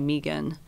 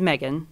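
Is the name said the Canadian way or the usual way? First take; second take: Canadian; usual. First: The name is said in the Canadian way. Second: The name is said in the usual way. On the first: The speaker calls it wrong. "I get my name pronounced wrong... it's the Canadian way to pronounce it" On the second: The speaker calls it right. "my name is Megan"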